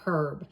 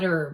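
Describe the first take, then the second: First: The word starts with an audible h sound. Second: The word starts without any h sound. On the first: The speaker calls it wrong. "You do not call it herb" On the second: The speaker calls it right. "you do not say the H in that word. ... We call it herb"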